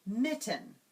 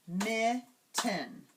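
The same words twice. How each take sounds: First: Said in the usual way. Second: "mitten" in two separate beats, mit, ten; divided into syllables. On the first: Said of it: "go on to another word". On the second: Shown as a demonstration. Teacher dividing another word for students, syllable by syllable. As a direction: clap out "mitten" with a clear gap. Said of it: "divide a word into syllables".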